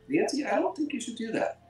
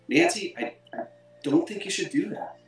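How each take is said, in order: First: It is said smoothly without any hesitation. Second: It is said with hesitation and a stutter.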